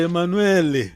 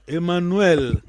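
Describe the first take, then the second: First: Emanuele with an extra final E after the L, as a Kikongo speaker says it; Kikongo-style Emanuele. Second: Emanuel said the Portuguese way, ending on a plain L. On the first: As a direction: add a vowel after the L: Emanuele. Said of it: "o Mukongo vai dizer". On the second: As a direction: finish Emanuel cleanly on L, no final vowel. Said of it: "não é, por exemplo". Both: Shown as a demonstration.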